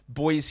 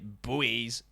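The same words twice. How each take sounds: First: It is said as one syllable, like 'boys'. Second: It is said as two syllables, like 'boo-eez'. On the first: "We just say boy" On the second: "as you Americans would say"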